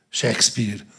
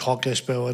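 First: The name is said with English pronunciation. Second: The name is read out letter by letter. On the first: This is how the name must be said. The speaker calls it right. "úgy kell mondani, hogy Shakespeare" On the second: This is how the name is written. The speaker calls it wrong. "leírjuk, hogy Hakespeare"

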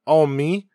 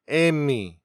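First: It is said in standard Korean. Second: It is said in Gyeongsang dialect.

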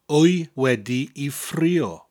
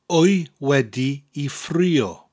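The two takes are said the same way.

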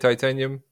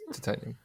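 First: It is said with an American pronunciation. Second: It is said with a non-American pronunciation. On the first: The speaker calls it wrong. "Americans say titanium" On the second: The speaker calls it right. "It's properly pronounced titanium"

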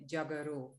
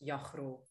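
First: The surname is said with a Surinamese pronunciation. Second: The surname is said with a Dutch pronunciation. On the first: This is how the name is said in the place of birth. "where I come from, Suriname, where I was born, they pronounce the last name Jajro" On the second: This is how the name is said in the place of upbringing. "So there it becomes Jajro"

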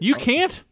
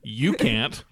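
First: The voice rises at the end like a question. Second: The voice falls at the end like a statement. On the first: The speaker is asking whether it is true. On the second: The speaker is stating that it is true.

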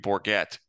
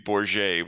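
First: The G is a hard English G sound. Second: The G is a soft French G sound. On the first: This is the anglicized pronunciation. "the anglicized version would be Bourget with a hard G" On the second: This is the French pronunciation. "the French version would be Bourget where you, you know, use the French G"

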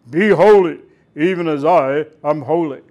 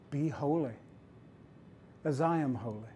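First: It is said as a booming, harsh command. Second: It is said as a gentle, warm invitation.

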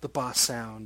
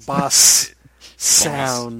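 First: The words are said quickly without careful articulation. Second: The words are said slowly with careful articulation. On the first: The speaker calls it wrong. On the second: The speaker calls it right.

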